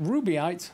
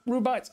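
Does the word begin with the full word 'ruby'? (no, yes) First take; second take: yes; no. First: The word begins with the full sound 'ruby'. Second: The word does not begin with 'ruby'. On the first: The speaker calls it wrong. "I've been saying it Rubyite for so long" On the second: The speaker calls it right. "I will try and remember the correct pronunciation"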